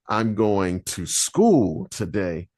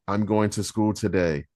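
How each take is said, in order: First: The word school carries the strongest emphasis. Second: The words are said with plain, even emphasis. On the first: The focus is on the destination. "that all automatically makes you think of the destination" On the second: It is just a plain statement. "That's a sentence"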